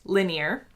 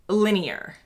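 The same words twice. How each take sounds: First: "linear" in two syllables, American style, LIN-yer; "linear" as an American says it, ending in -yer; her own American linear. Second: "linear" in three syllables, LIN-ee-er, the British way; copying her British husband's "linear", LIN-ee-er. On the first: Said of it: "I will say it how I say it in my accent first". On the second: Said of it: "how he says it". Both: Shown as a demonstration.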